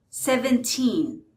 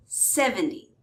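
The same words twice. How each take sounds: First: Put-on "seventeen" with long, stressed "teen". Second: "seventy" stressed on "sev", weak ending. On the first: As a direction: lean on the end of "seventeen". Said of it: "the stress is on the teen". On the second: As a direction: punch the start of "seventy". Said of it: "stress is on the first syllable". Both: Shown as a demonstration.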